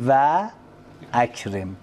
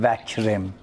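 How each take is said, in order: First: The glottal stop before akram is kept. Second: The glottal stop is dropped and the words run together. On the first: The speaker calls it right. "میگن و اکرم" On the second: The speaker calls it wrong. "نمیگن وکرم"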